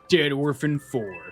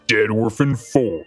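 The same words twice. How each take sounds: First: It is said in a normal voice. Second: It is said in a put-on deep voice.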